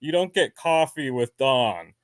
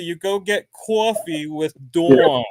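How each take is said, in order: First: Colorado vowels, cahfee with Don; Colorado pronunciation in contrast; Colorado accent. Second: Louder, higher New Jersey accent with cawfee and Dwawn; proud New Jersey pronunciation. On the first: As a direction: imitate flattened Colorado ah vowels. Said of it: "it's pronounced Dawn". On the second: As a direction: lean into New Jersey vowels. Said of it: "So in New Jersey". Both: Shown as a demonstration.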